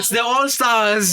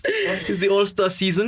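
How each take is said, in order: First: Slow, higher, grand announcer voice; milk it like a stage ham; hammy stage actor. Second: Slow, grand, higher-pitched announcement; hammy stage actor. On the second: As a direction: stretch it like a showman. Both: Acted. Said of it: "don't mind the theatrics".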